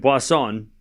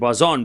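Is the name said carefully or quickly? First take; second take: carefully; quickly. First: The name is said slowly and carefully. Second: The name is said fast and clipped. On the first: "I was saying Boisson" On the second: "I'm saying Boisson because I'm saying it fast. So it sounds different"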